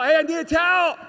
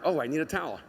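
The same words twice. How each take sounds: First: Loud, high call for a towel; yelling. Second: Said in the usual way. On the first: Retold or imitated. Boy in the shower calling his family for a towel, yelling. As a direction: holler it out to the next room. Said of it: "I would always yell". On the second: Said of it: "I would remember".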